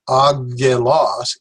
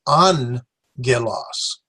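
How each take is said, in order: First: The double gamma is a hard G sound. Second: The double gamma is an N-G sound. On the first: The speaker calls it wrong. "This is not agelos" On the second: The speaker calls it right. "so this has an N sound to it"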